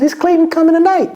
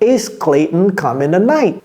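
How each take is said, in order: First: It is said at a normal, quick pace. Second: It is said more slowly and deliberately.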